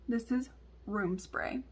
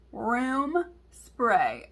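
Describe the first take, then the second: First: Softer, slow, measured telling; retold explanation. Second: "Room spray" drawn out, each word stressed; emphatic repetition. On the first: Mom explains the bottle to daughter, slow and measured. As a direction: break it to them slowly and a little softly. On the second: Retold or imitated. Mom repeats it to clueless daughter, "Room spray" slow and emphatic.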